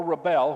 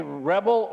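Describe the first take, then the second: First: "rebel" said re-BEL, stress on the second syllable; "rebel" as the verb, re-BEL; verb pronunciation. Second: "rebel" said REB-el, stress on the first syllable; "rebel" as the noun, REB-el; noun pronunciation. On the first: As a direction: push the weight to the end of "rebel" like the verb. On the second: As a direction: lean on the front of "rebel" like the noun. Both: Shown as a demonstration. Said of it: "whichever way you pronounce it".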